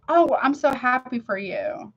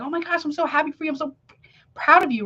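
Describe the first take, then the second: First: Slow, unenthused "Oh, I'm so happy for you"; dutiful congratulations with no excitement, said slowly; half-hearted congratulations. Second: High, fast and gushing with real excitement; truly thrilled congratulations, said quickly; genuine enthusiasm. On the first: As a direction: say the words with none of the feeling behind them. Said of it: "but the emotion don't match the words". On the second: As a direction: burst out happy for a friend, quickly and brightly. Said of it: "like, that's enthusiasm". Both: Shown as a demonstration.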